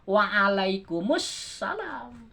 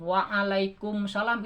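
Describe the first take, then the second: First: The syllable before salam is pronounced. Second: The syllable before salam is dropped. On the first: The speaker calls it right. "harusnya kan waalaikumussalam" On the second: The speaker calls it wrong. "itu salah kan, kan ada alif lam kenapa dibuang"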